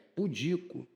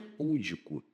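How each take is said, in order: First: The stress is on the second syllable. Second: The stress is on the first syllable. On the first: The speaker calls it right. "Pudico é paroxítona" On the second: The speaker calls it wrong. "Aqui não é púdico"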